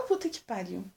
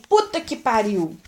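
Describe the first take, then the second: First: Much softer, under the breath; her own soft version. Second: A crisp, mildly louder curse, demonstrated; curse as typically said. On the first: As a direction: drop it low and quiet, like you barely say it. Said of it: "Eu falo". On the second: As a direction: show how a grown-up blurts it out. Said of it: "Que nem". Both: Shown as a demonstration.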